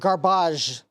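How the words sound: The word is said in a fancy, posh way.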